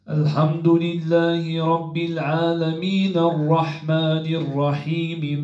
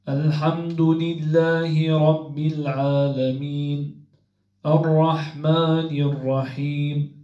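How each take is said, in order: First: It runs on without a pause after العالمين. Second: There is a pause after العالمين.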